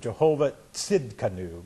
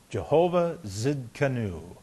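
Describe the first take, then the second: First: The second word starts with a ts sound. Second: The second word starts with a plain z sound.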